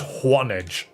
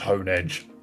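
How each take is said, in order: First: The name begins with the sound of 'one'. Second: The name begins with the sound of 'hone'. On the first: The name contains the number one. "H one edge, is Juanedge" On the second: The name refers to honing an edge. "So maybe it is just Honedge"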